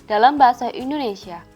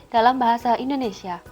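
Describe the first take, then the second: Both takes have the same delivery.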